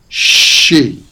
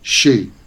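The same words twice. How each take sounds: First: The sounds are drawn out longer than usual. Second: The sounds are said at ordinary everyday length. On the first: "I'm making the sounds longer than they usually are" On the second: "what those words sound like in everyday pronunciation"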